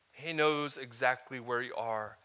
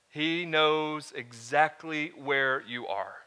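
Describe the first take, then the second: First: Said in the usual way. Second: Slow, emphatic, with the weight on "knows". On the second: Shown as a demonstration. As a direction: lean hard on "knows", drawn out.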